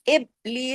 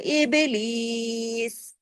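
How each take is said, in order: First: The b sound is held firmly without bounce. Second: The b sound is released with an echoing bounce. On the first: The speaker calls it wrong. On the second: The speaker calls it right.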